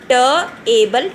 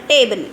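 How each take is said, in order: First: "Ta-able" split as "tuh", then "able"; sounded out. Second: Said in the usual way. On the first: Shown as a demonstration. Teacher pronouncing once again, "Ta-able" sounded out in parts. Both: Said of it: "So I'll pronounce once again".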